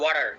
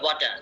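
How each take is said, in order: First: It is said in an American English accent. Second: It is said in a British English accent. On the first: "আমেরিকানরা বলবে" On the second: "ব্রিটিশরা বলবে"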